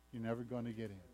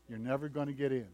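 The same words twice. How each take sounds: First: Much softer, lower, sinking repeat; quiet repeat. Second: Said in the usual way. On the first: Acted. Preacher repeats the warning to the congregation, softly. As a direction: let the warning drop almost to a hush.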